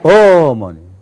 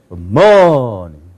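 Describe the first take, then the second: First: The stress is on the first syllable. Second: The stress is on the second syllable. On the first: "첫 번째 들어가면은" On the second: "그 두 번째 있으면"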